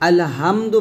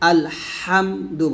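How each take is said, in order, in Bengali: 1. h ধ্বনিটি হালকা, গলায় কোনো চাপ নেই। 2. h ধ্বনিটি গলার মাঝখান থেকে চাপ দিয়ে বলা হয়। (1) "বলা যাবে না" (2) "বলতে হবে"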